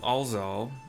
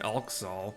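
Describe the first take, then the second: First: The middle consonant is a z sound. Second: The middle consonant is a ks sound. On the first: "I'm pronouncing the X as a Z" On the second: "it's just easier than Alxal. No thank you"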